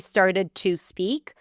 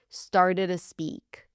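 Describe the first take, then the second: First: Each word is said fully and separately. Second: The words are reduced and run together. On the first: "You can say" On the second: "if you want to reduce it a bit"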